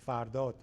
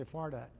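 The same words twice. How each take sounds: First: "Fardot" as in the original Persian; the speaker's own name said natively; native Persian pronunciation. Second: "Fardad" as English speakers say it; anglicized "Fardad", lightly dropped in pitch; English pronunciation. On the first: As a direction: say "Fardot" the Persian way, with a rounded o in the last syllable. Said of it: "not how you pronounce my name". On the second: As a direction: say "Fardad" the anglicized way, flat English vowels and a hard final d. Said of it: "which is absolutely wrong". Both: Shown as a demonstration.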